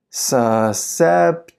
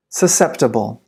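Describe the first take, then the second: First: Very slow, every syllable drawn out; slow-motion model for repeating; slow pronunciation. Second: Said in the usual way. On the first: Shown as a demonstration. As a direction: stretch the word right out for learners. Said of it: "then I'll read it slow". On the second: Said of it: "I'll read it fast".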